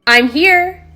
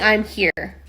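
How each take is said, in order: First: It is said in a normal voice. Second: It is said in a lower, deeper voice.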